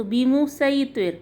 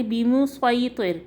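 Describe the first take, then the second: First: سوئی with a light, thin s; plain s in سوئی; Seen sound. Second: سوئی with a heavy, rounded emphatic s; Saad sound. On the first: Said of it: "اب ہم نکالیں گے سین کی آواز". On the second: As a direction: thicken the s in بیمو سوئی طر as a Saad. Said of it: "یہ ہم نے نکالی صاد کی آواز". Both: Shown as a demonstration.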